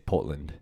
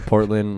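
First: It is said in a South African accent. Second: It is said in the speaker's own American accent.

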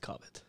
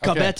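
First: The name is pronounced in a New Brunswick style. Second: The name is pronounced in a Quebec style. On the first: The speaker presents as coming from New Brunswick. "when I come from New Brunswick, right, then it's Cobbett" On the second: The speaker presents as coming from Quebec. "if I come from Quebec"

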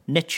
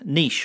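First: The word is pronounced the American way. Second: The word is pronounced the British way.

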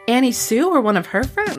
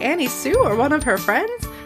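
First: It is read in the reader's ordinary voice. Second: It is read in a put-on character voice. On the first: The speaker calls it wrong. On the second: The speaker calls it right.

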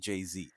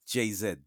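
First: The final letter is pronounced 'zee'. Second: The final letter is pronounced 'zed'. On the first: The speaker calls it right. "You say JZ" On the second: The speaker calls it wrong. "you don't say JZ, do you?"

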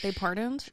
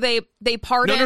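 First: It is said at a quieter volume. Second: It is said at a louder volume. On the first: The speaker calls it right. "Okay, that's better" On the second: The speaker calls it wrong. "No. Lower"

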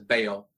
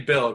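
First: It is said in a thick Southern accent. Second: It is said in a neutral accent.

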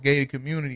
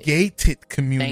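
First: The word gated is slurred, sounding like gay. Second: The word gated is said clearly, with its t. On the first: The speaker calls it wrong. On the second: The speaker calls it right. "make sure you enunciate gated"

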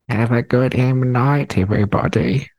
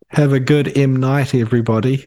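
First: It is said in a put-on old man's voice. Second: It is said in the speaker's normal voice. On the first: The speaker calls it right. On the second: The speaker calls it wrong.

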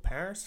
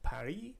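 First: Paris is said with an English pronunciation. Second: Paris is said with a French pronunciation.

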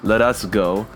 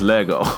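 First: All three words are said in full. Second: The t and s sounds are dropped entirely. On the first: This is the older way of saying it. "We used to say" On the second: This is how people say it now. "they don't even pronounce the T and the S"

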